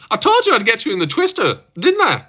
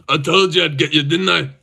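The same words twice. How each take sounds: First: Put-on high-pitched, laughing Irish accent; Scottish attempt that comes out Irish, pitched way up. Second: Mock Scottish accent near natural pitch. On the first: Streamer imitating a fighter gloating over a twister, Irish accent. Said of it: "But that was Irish". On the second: Streamer demonstrating his impression of a gloating fighter, Scottish accent. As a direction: say it as a gloating put-on Scot. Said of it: "Scottish accent, by the way".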